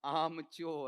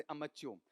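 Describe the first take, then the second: First: "आमच्योर" with a long, drawn-out आ; long-vowel pronunciation. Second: "अमच्योर" with a short first अ; short-vowel pronunciation. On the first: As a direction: stretch the first vowel of "आमच्योर". ("आमच्योर", लंबा आ खींचकर) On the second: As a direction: keep the opening of "अमच्योर" quick. ("अमच्योर", छोटा अ) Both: Shown as a demonstration. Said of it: "वैसे अमच्योर".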